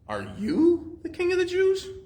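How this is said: The word "you" is strongly stressed.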